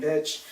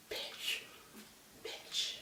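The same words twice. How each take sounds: First: Said in the usual way. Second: Whispered, spaced-out insult; imitating muttered insult. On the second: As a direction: say it under your breath, mimicking her. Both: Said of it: "She kept saying".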